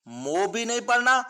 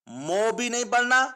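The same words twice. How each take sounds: Both takes have the same delivery.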